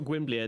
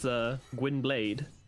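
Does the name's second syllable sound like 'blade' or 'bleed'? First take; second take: bleed; blade. First: The second syllable sounds like 'bleed'. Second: The second syllable sounds like 'blade'. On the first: This is the Welsh way of saying the name. The speaker calls it wrong. "I was trying to give it the Welsh pronunciation" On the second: This is the way the name is said in The Witcher. The speaker calls it right. "apparently it's from The Witcher"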